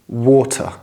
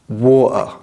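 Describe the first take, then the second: First: The middle T is pronounced clearly. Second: The middle T is not pronounced. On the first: "you need to pronounce all of your T's clearly" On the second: "the T's in the middle of the word are not pronounced. So this becomes water"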